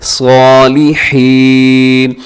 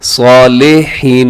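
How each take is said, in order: First: सालिहीन with heavy "saw", crisp short "li", long "heen"; correct tajweed. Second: सालिहीन with middle vowel opened to "saa-le-heen"; wrong pronunciation. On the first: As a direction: draw सालिहीन out slowly as "saw-li-heeen". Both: Shown as a demonstration. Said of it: "सालिहीन नहीं पढ़ना बल्कि".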